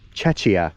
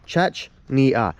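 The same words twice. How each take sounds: First: The word is said without an n sound. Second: The word is said with an n sound. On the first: "there is no N in that word" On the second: "I thought it was pronounced Chechnya"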